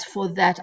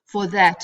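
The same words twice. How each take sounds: First: Said in the usual way. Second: For that, with "that" hit hard and loud; stress on that. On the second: Shown as a demonstration. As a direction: land heavily on "that" in "For that".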